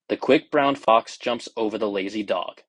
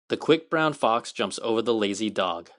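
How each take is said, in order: First: The voice sounds muffled, as if inside a tube. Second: The voice sounds the fullest and cleanest of all. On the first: The speaker calls it wrong. "sometimes felt like you were trapped inside of like of a covering or a little bit of a tube" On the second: The speaker calls it right. "nothing compares to actually speaking to an iPhone fourteen directly"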